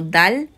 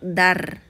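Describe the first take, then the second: First: The word ends with an L-like sound. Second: The word ends with an R-like sound. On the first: The speaker calls it right. "Va a sonar como dal" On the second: The speaker calls it wrong. "no se va a pronunciar dar"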